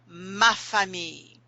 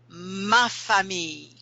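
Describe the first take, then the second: No difference in how they are said.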